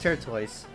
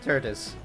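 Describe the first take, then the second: First: The final syllable sounds like 'toys'. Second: The final syllable sounds like 'tis'. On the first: This is how the speaker says it. "I pronounce it turtoise" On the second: This is how others say it. "Others pronounce it turtis"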